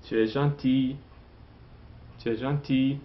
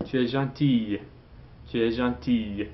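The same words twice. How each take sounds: First: "gentil" ending on the vowel "ee", no L; silent final L. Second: "gentille" with its final "-ille" sounded, "ee-y"; pronounced feminine ending. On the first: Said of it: "Don't pronounce the L". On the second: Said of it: "Then you pronounce that". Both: Shown as a demonstration.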